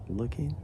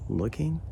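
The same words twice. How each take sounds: The two takes are said the same way.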